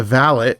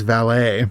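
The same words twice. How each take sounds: First: "valet" said as VAL-it; first pronunciation of valet. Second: "valet" said as val-AY; French-style valet. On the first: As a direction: say "valet" with a sounded T at the end. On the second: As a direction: say "valet" with a silent T, ending in a long AY. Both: Shown as a demonstration. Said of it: "I think it's pronounced valet".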